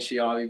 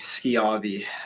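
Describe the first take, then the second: First: The name begins with an sh sound. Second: The name begins with an sk sound. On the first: The speaker calls it wrong. "people like saying Shiavi" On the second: The speaker calls it right. "it is indeed B"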